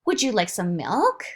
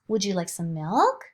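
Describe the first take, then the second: First: Parentese question. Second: "milk" lifted at the end; rising question. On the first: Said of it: "the mother or the father will say". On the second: Parent demoing a rise on "milk" to a baby. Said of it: "there's a rise at the end of the sentence". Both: Shown as a demonstration.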